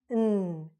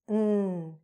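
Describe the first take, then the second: First: The word is reduced to a short n sound. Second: The word is reduced to a short n sound.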